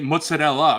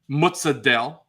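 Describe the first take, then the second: First: It is a hybrid pronunciation, mixing two styles. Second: It is a strong New York Italian pronunciation.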